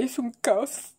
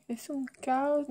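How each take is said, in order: First: Said in the usual way. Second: "Es un caos" higher and slow, each word drawn out; mocking drawn out. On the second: Shown as a demonstration. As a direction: drag out "Es un caos" as a mock quote. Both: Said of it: "¿Cómo que dicen?".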